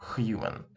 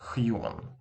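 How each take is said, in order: Both takes have the same delivery.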